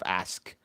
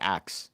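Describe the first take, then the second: First: The word ends with the s then k. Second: The last two sounds are swapped, like axe. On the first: "the word is ask" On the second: "they pronounce it axe"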